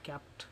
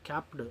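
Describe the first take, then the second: First: The ending is a voiceless t sound. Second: The ending is a voiced d sound. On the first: The speaker calls it right. "టీ అనేది మనం add చేయాలన్నమాట" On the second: The speaker calls it wrong. "కాదు"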